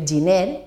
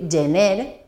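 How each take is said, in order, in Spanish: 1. La primera vocal se pronuncia i. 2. La primera vocal se pronuncia e. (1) "no hem de dir giner" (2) "hem de dir gener"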